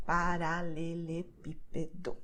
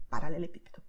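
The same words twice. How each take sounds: First: Paralelepípedo said slowly, syllable by syllable, stress on pí; slow syllable demo. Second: Paralelepípedo at normal speed, stress on pí. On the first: Teacher slowly showing where the stress lands. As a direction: spell Paralelepípedo out slowly, leaning on pí. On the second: Teacher repeating the word at natural speed. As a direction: say Paralelepípedo at full speed, still hitting pí. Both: Shown as a demonstration. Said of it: "stressed here on P".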